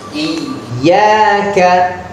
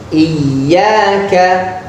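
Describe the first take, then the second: No difference in how they are said.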